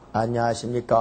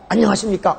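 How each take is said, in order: First: The voice is low-pitched and weak. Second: The voice is high-pitched and strong. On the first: The speaker calls it wrong. "이러지 않는다는 거예요" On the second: The speaker calls it right. "항상 기본 톤이 소름 이상이래"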